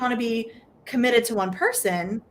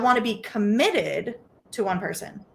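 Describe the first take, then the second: First: The stress is on the word one. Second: The stress is on the word committed.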